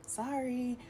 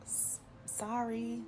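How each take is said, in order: First: A higher, quick "Sorry"; a steadier little apology; cleaner, shorter "Sorry". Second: Stammered, slow, soft and high; a stuck, slow "S-, sorry"; awkward sorry. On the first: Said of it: "I was just like". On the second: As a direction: trail into an awkward apology. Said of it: "I'm just like". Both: Retold or imitated.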